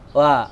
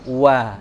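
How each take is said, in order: First: The wa starts with open, unrounded lips. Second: The wa starts with lips pushed forward and rounded. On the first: The speaker calls it wrong. "jadi bukan wa" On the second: The speaker calls it right. "tapi dimonyongkan baru wa"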